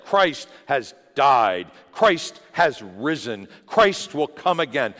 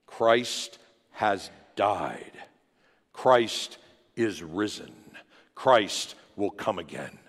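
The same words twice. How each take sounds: First: Louder, slow proclamation of the creed; proclaimed creed. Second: Measured, slow creed recital; each phrase spoken slowly and deliberately; slow proclamation. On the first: Believers through the ages proclaiming, slow and bold. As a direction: declare it slowly and boldly. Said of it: "gathered and said". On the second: Church members reciting the creed together, slow and measured. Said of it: "they proclaim with one voice". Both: Retold or imitated.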